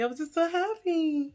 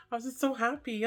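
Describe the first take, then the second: First: Higher, gushing happiness; gushing, overjoyed; giddy. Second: Said in the usual way. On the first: Shown as a demonstration. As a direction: squeal it with delight.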